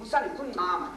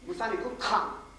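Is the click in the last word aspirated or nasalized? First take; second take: nasalized; aspirated. First: The click in the last word is nasalized. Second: The click in the last word is aspirated. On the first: Don't despair. The speaker calls it right. "the word for despair is nama" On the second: Don't urinate. The speaker calls it wrong. "instead of nasalizing that click, he aspirates it"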